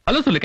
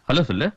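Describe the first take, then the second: First: Higher, insistent repeat of an order; irritated parental command. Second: Low-pitched, restrained order; restrained parental prompt; low-key instruction. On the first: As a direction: press the child to obey. Father repeats the order, angrier. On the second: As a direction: tell the child to greet, voice kept low. Father first tells daughter to greet. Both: Acted.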